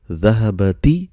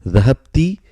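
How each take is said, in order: First: Dhahabati with a short a after b; careful fatha reading. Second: Dhahabti with the b shut against the t; three clear syllables in Dhahabti, ending -habti; careful sukoon reading. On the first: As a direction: read dhahabati in four syllables, ending -ba-ti. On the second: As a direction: read Dhahabti with no vowel after b. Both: Shown as a demonstration. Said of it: "if you are not pronouncing".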